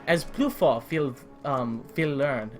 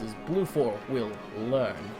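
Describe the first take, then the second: First: It is spoken in a German accent. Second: It is spoken in a Russian accent. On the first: "that was my attempt at the German accent" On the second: "that was Russian"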